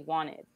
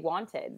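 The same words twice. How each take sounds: First: The T in the middle is pronounced soft. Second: The T in the middle is pronounced hard. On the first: "So then the T is softed softer" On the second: "you're pronouncing the T really hard"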